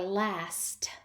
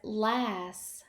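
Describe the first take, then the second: First: The final t sound is pronounced. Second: The final t sound is dropped. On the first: The speaker calls it right. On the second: The speaker calls it wrong.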